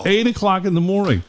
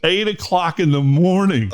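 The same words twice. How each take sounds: First: High, stressed eight, falling; incredulous. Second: Laughing high and slow; a laughing, incredulous repeat; laughing disbelief. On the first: Host stressing to cohost how early it aired. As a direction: hammer home the early hour. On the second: Host laughing in disbelief at his on-air time. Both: Real, not acted.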